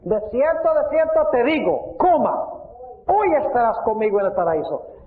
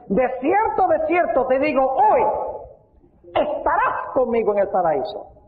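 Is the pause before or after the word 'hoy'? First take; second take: before; after. First: The pause comes before the word hoy. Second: The pause comes after the word hoy.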